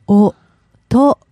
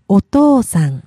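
First: It is said slowly, broken into parts. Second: It is said quickly as one word.

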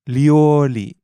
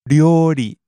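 First: The word begins with a heavy English L. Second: The word begins with a heavy English R. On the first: "now I'll do a heavy L sound" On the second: "I'll do a heavy R sound"

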